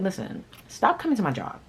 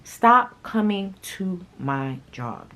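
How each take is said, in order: First: Said in the usual way. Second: "Stop coming to my job" drawn out slowly, each word hit; slow emphatic repeat. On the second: Retold or imitated. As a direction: spell it out slowly and firmly.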